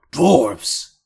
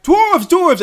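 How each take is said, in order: First: Orc shout. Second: High, loud goblin cries; distant goblin alarm. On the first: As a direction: bellow it as the orc. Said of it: "you hear the orc go". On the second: Goblins further back raising the alarm, high shouting. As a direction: pass the alarm along in a high yell. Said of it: "you hear further back". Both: Acted.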